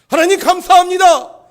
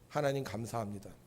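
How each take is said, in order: First: It is said with a strong, forceful voice. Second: It is said plainly, without extra force. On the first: "목소리에 힘이 들어가기 시작을 하더라고요" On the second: "처음에는 그냥 했어요"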